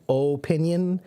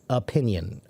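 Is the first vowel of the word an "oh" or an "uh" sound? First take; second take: oh; uh. First: The first vowel is a full "oh" sound. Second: The first vowel is a weak "uh" sound. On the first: "Some people pronounce it with a stronger O in the beginning" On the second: "a lot of people pronounce it with a more of an uh sound in the beginning"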